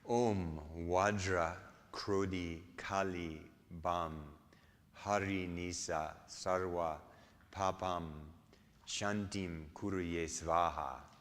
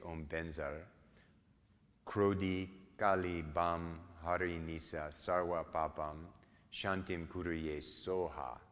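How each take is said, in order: First: It is pronounced the Sanskrit way, with Vajra. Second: It is pronounced the Tibetan way, with Benzar.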